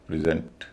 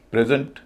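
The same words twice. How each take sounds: First: present as pri-ZENT; verb pronunciation. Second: present as PREZ-unt; noun pronunciation. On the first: Teacher giving the verb form, present as pri-ZENT. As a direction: stress the second part of present. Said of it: "verb के मामले में अलग हो जाता है". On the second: Teacher giving the noun form, present as PREZ-unt. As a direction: stress the first part of present, weak ending. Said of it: "noun के मामले में उच्चारण अलग". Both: Shown as a demonstration.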